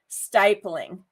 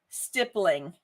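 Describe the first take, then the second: First: The first vowel is said hard. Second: The first vowel is said soft. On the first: This is the dictionary pronunciation. "the appropriate pronunciation and hard vowels" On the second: This is how the speaker has always said it. "I've always said stippling"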